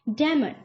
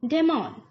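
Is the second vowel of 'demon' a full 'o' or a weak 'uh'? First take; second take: weak uh; full o. First: The second syllable has a weak 'uh' vowel. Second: The second syllable has a full 'o' vowel. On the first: The speaker calls it right. "इसका सही तरीका है उच्चारण का" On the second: The speaker calls it wrong. "इसको लोग गलत तरीके से क्या प्रोनाउंस करते हैं?"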